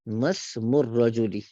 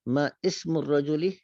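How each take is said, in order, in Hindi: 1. पहले दो शब्द बिना रुके एक साथ जुड़कर बोले जाते हैं। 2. पहले दो शब्द एक विराम के साथ अलग-अलग बोले जाते हैं। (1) "इसको मिला के पढ़ते हैं" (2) "अगर हम इसको अलग पढ़े"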